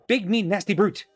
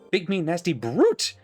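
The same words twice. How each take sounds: First: No extra stress falls on brute. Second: Extra stress falls on brute.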